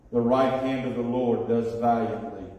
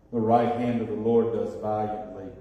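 The two takes are said the same way.

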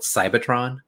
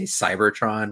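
First: The R sound is dropped. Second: The R sound is clearly pronounced. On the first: The speaker calls it wrong. "I'm assuming they called it Cybertron" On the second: The speaker calls it right. "actually say Cybertron with the R"

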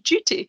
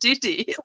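First: The T is said as a clear, hard T. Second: The T is softened, not a clear T. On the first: The speaker calls it right. "It's a hard T" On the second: The speaker calls it wrong. "when they're pronouncing it duty. That's weird"

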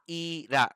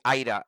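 First: The name is said slowly and carefully. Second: The name is said quickly, the middle sounding like d. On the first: "Am I saying it right?" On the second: "when I say it really quickly"

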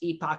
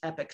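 First: It is said the European way, like 'ee-pock'. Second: It is said the North American way, like 'epic'.

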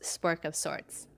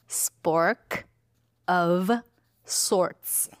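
First: The phrase is run together casually. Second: The phrase is articulated clearly and carefully.

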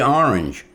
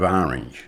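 First: The R sound is clearly pronounced. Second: The R sound is dropped. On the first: This is how the speaker himself says it. "I pronounce my R's" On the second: This is how most locals say it. "which is a lot different than most Rhode Islanders"

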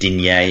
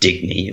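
First: The name is said with a French pronunciation. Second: The name is said with an English pronunciation. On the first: The speaker calls it right. "if you want to put the old French slant on it" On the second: The speaker calls it wrong. "as we're calling it"

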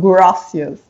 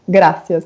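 First: It sounds like a foreigner's gringo accent. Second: It sounds like typical Latin American Spanish.

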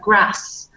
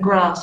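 First: The vowel is short and flat, northern style. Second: The vowel is long and open, southern style. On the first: "my vowel sounds, for example, are flat. So I'd say things like grass" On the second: "rather than grass"

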